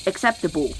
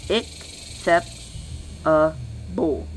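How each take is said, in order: First: Said in the usual way. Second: ACCEPTABLE split into slow, separate syllables. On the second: Shown as a demonstration. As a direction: say acceptable very slowly, pausing between each syllable. Same word split into syllables.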